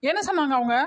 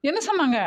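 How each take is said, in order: First: Said in the usual way. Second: என்ன pushed much higher with a falling end; insistent repeat. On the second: Acted. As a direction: demand the answer again on என்ன. (என்ன என்பதை உயர்த்தி வலியுறுத்தி)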